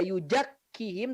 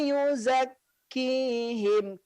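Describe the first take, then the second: First: The consonant after 'yu' sounds like 'j'. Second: The consonant after 'yu' sounds like 'z'. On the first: The speaker calls it wrong. "tidak yujakkihim" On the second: The speaker calls it right. "Seperti huruf Z kalau dalam bahasa kita"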